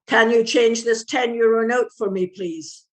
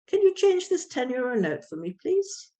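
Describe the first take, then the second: First: It sounds serious and cold. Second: It sounds friendly and warm. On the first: The listener will not respond well. The speaker calls it wrong. "with a very serious face and the wrong intonation" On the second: The speaker is making a polite request. The speaker calls it right. "And you smile and you look friendly"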